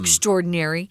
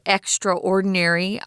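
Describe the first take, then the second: First: Extra and ordinary are run together as one word. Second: Extra and ordinary are said as separate parts. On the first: "I put the words together" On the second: "you'll sometimes hear people pronounce this word"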